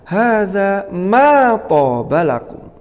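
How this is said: The stress falls on the word ma. "Yang pertama, ... tekanannya ada dimanya"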